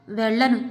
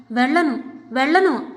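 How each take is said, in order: First: Said in the usual way. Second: The wife, pushed too far, refusing inwardly in rising anger; rising refusal. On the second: A narrator's reading. Each no pushed louder. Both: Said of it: "అనుకుంది".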